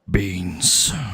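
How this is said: It is said in a very deep voice.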